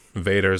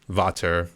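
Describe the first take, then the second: First: The middle consonant sounds like a D. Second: The middle consonant sounds like a T. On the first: This is how most people say it. The speaker calls it wrong. "they always pronounce it kind of like Vader" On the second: This is how it is supposed to be said. The speaker calls it right. "I think that's the way they're supposed to pronounce it"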